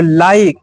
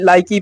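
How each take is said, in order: First: It ends on the k with no vowel. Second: An extra e vowel is sounded after the k. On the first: The speaker calls it right. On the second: The speaker calls it wrong. "ना कि लाइक ही पढ़ेंगे"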